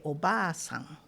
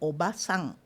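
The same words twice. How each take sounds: First: The vowel in ba is long. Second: The vowel in ba is short. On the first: It means an elderly lady or grandmother. "a mais idosa é Oba-san" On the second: It means a younger lady or aunt. "a mais jovem é Oba-san"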